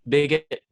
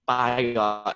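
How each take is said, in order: First: The first syllable sounds like 'big'. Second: The first syllable sounds like 'by'.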